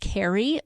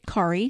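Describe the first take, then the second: First: The name sounds like the English name Carrie. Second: The name does not sound like Carrie. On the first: This is the usual way the name is said. "Generally speaking, when you see that name, it's pronounced Carrie" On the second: This is how a Norwegian family says the name. "I grew up in a Norwegian family... we pronounce it Kari"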